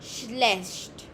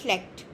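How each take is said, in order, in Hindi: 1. 'ch' को 'sh' की आवाज़ की तरह बोला जाता है। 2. 'ch' को 'k' की आवाज़ की तरह बोला जाता है। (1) "ई सी एच को श साउंड" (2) "डायलेक्ट्स होते हैं ना, उसमें आपको श्लेक्ट भी सुनाई दे सकता है"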